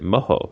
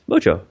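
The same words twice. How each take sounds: First: The middle consonant is an h sound. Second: The middle consonant is an English j sound. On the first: A sauce made with chilies, peppers and oil. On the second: A magical charm or luck.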